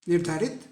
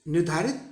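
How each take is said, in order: The two takes are said the same way.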